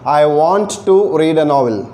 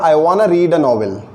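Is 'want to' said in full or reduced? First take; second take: full; reduced. First: 'Want to' is said as two full words. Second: 'Want to' is reduced to 'wanna'. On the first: "वॉन्ट टू हो जाता है वाना" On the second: "तो ये हो जाएगा"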